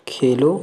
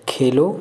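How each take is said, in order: The two takes are said the same way.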